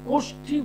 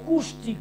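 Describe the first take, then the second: First: The first vowel is an o sound. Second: The first vowel is a u sound. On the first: The speaker calls it right. "কয় ওকা" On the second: The speaker calls it wrong. "অনেক জ্যোতিষরা দেখবেন উচ্চারণটাও শেখেনি, বলে কুষ্টি"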